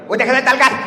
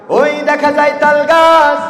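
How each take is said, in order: First: It imitates the former health minister's voice. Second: It is a plain recitation of the poem.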